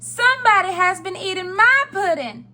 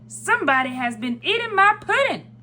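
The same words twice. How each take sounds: First: It is said in a middle-sized voice. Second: It is said in a great big voice.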